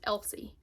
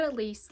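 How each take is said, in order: First: The name sounds like EL-see, stressed at the start. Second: The name sounds like eh-LEESE, stressed at the end. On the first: The speaker calls it right. "I'm pretty sure that it's pronounced" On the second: The speaker calls it wrong. "I said Elise last time ... I pronounced this wrong"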